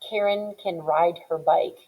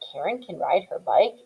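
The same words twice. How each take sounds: First: The pitch falls at the end. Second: The pitch rises at the end. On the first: It states a fact. "instead of saying" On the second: It asks a yes-or-no question. "raising your pitch of your voice, then it sounds like a question"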